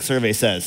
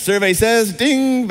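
First: Said in the usual way. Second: Mock game show host calling it out. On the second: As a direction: announce it like a quiz show host, with the ding. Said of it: "I feel like we're doing, like, survey says".

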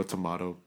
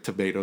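First: "tomato" with an ah in the middle; lower, softer tomato with an open ah; broad-a tomato. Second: "tomato" with a long ay in the middle; tomato rhyming with potato; American tomato. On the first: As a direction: say tomato as to-MAH-to. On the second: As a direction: say tomato as to-MAY-to. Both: Shown as a demonstration. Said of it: "I think it's like tomato, tomato".

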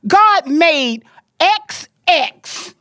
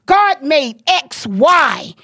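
First: God made X X, each word slow and separate; slow emphatic. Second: God made X Y, each word slow and separate; slow emphatic. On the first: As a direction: spell it out word by word. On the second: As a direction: lay down each word like a rule. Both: Real, not acted. Slowly spelling out point.

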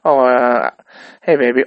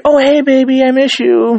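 First: Said in the usual way. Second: Put-on much higher, louder cooing hey baby; sugary sweet greeting. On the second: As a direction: switch to cute lovey-dovey falsetto. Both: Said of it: "and I'm like".

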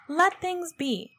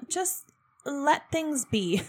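First: Slow, higher, with a rueful laugh; laughing repeat. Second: Said in the usual way. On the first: Real, not acted. Podcaster repeating her own wish, laughing ruefully.

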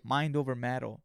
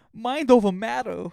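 First: Said in the usual way. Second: Higher, louder, slower mind over matter; hyped gym mantra shouted out. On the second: Shown as a demonstration. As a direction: bark the mantra like a coach. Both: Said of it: "repeated mantra".

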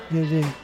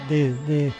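The two takes are said the same way.

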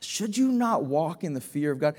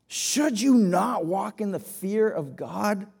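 First: Said in the usual way. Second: "Should you not walk in the fear of God" slow and weighty, leaning on "you"; slow down, stress "you" gravely; slow solemn question. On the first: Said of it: "Should you not walk in the fear of God? (slow repeat)". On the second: Shown as a demonstration. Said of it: "repeat of the question, slowed for weight".

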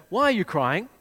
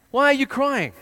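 First: Said in the usual way. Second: Higher, louder, incredulous; mocking dumb question. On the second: Shown as a demonstration. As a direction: sneer at the obvious question, pitched up and loud. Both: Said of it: "What a dumb question".

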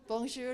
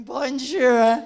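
First: Said in the usual way. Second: Very loud, overdone French greeting; clumsy tourist French. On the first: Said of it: "the girl was sort of going". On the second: Retold or imitated. Two non-speakers echoing the French girl, overloud clumsy greeting. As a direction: blare it out like a clueless foreigner. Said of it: "and we were going".

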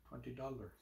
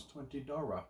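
First: Said in the usual way. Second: "twenty Dara" softly, R replacing the L; odd pronunciation. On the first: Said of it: "sometimes the way I pronounce". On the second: Shown as a demonstration. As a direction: quietly say "twenty Dara" with an affected accent. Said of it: "the way I pronounce".

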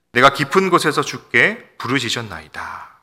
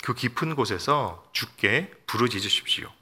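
First: Scripture cry. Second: Said in the usual way. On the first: Acted. Quoting the psalmist's cry.

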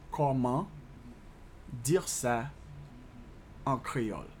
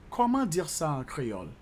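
First: "Comment", "dire ça", "en créole" with long pauses; measured dictation, pausing after each chunk; slow breakdown. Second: Said in the usual way. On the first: Shown as a demonstration. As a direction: piece by piece for learners. Teacher breaks French question down.

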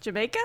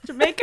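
First: Said in the usual way. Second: Jamaica as a higher, louder laughing question. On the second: Acted. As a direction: ask Jamaica through giggles. Second try, cracking up.

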